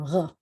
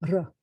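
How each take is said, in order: First: The r is made far back in the throat. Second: The r is a gentle rolled trill. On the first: This is how most people actually say it. "what I call a French R" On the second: This is the official announcer pronunciation. "it was supposed to be a gentle trill"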